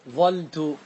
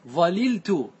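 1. لام واحدة، مع فتحة بعد الحرف الأول. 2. يُنطق اللامان كلاهما، وبينهما حركة. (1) "احذف اللام واترك الفاء كما هي ... فتحة" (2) "تفك الإدغام وتأتي باللامين"

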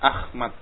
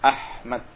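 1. Konsonan tengahnya adalah bunyi kh yang kasar dan bergesek. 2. Konsonan tengahnya adalah bunyi h yang bersih dan berhembus. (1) "Kalau orang-orang Jawa kadang-kadang mengucapkan ha ini ah" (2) "Pakai ha"

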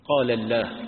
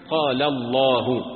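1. اللام في الله يُنطق خفيفاً رقيقاً. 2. اللام في الله يُنطق ثقيلاً ممتلئاً. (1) "هكذا بعضهم" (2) "ومفخم تارة ومرقق أخرى"

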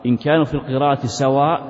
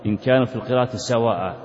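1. تنتهي الكلمة الأخيرة فجأة بهمزة وقف مجردة. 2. تنتهي الكلمة الأخيرة بصوت ألف ممدودة 'a'. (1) "هذا ما يصح" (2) "والمنصوب في مثل هذا يوقف عليه بهذه الطريقة"

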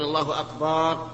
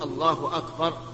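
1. تُمَدّ الحركة التي بعد الباء. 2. لا يُمَدّ أي حرف علة في الكلمتين. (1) "أن يمد الباء" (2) "لا بد أن يقول الله أكبر"

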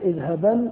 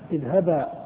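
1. تنتهي الكلمة بصوت النون الأنفي. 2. تنتهي الكلمة بحرف الألف الممدود. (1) "في الوصل تنطق نونا" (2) "وإذا وقفت تقول اذهبا"

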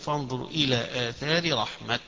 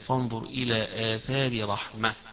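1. الكلمة الأخيرة تنتهي بصوت التاء. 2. الكلمة الأخيرة تنتهي بصوت الهاء. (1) "يقفون بالتاء" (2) "يقفون بالهاء"

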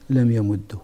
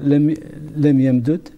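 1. الدال المضعّفة تنتهي بضمة قصيرة. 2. يُفكّ الحرف المضعّف د، فتنتهي الكلمة بلا حركة.

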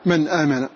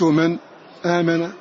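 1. تُنطق الهمزة دون أي وقفة. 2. يسبق الهمزة المحفوظة سكتٌ خفيف. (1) "التحقيق" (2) "السكت"

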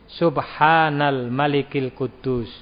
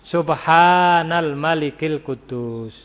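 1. Diucapkan dengan lirih, hampir di bawah nafas. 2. Diucapkan paling keras, dengan suara dinaikkan. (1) "ini dibaca lirih" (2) "lebih keras lagi"

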